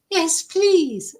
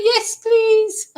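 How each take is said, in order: First: Higher, still keen but calmer second take; eager yes please. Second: Much higher and louder, squealing with eagerness; desperate yes please. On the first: Thirsty guest repeats her thanks to the neighbour, calmer but keen. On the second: Parched guest grabs at neighbour's offered tea, squealing eagerly. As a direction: leap at the offer like you're dying of thirst. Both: Retold or imitated.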